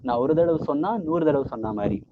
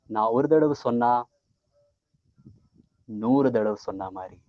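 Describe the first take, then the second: First: It is said without a marked pause. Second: A long pause comes after the first half.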